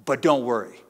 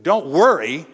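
First: Said in the usual way. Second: Incredulous. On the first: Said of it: "Somebody comes up to you and says". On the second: Retold or imitated. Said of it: "You go".

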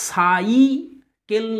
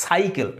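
First: সাইকেল stretched very slowly, the আ and ই held long and separately; vowels drawn apart. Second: Said in the usual way. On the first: Shown as a demonstration. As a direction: say সাইকেল in slow pieces, সা-ই, then কেল. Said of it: "একটা ই আসছে". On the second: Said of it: "এটার উচ্চারণ কি হচ্ছে".

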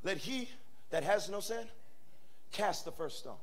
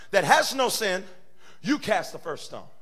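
First: Quiet quoted verse. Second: Has leaned on, cast the first stone falls away; stress on has. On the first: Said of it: "And he says". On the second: Preacher showing the verse with stress on has. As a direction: press the word has, let the rest sink. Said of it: "I'm gonna show you". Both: Shown as a demonstration.

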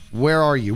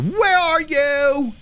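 First: Said in the usual way. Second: Slow, high singsong holler; high drawn-out call. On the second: Pretend. Player calling to the ghost, high drawn-out call. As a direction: stretch the question out high.

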